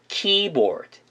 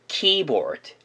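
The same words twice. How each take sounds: The two takes are said the same way.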